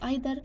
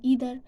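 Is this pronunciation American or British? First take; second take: British; American. First: It is said with a British pronunciation. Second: It is said with an American pronunciation. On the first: "British pronounce uh"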